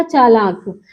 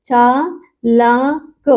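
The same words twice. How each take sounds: First: Said in the usual way. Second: चालाक stretched very slowly, every sound held long; drawn-out reading. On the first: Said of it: "तो क्या हो गया?". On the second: Shown as a demonstration. Teacher slowly sounds out चालाक for her students. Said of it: "ये क्या होता है जानते हो?".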